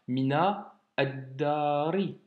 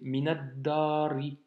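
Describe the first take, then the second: First: The words are said separately, without linking. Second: The words are run together in one linked flow. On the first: The speaker calls it wrong. "c'est pas mina addari" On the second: The speaker calls it right. "c'est minadari"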